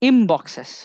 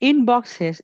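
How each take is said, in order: First: The first word ends with an 'm' sound. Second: The first word ends with an 'n' sound.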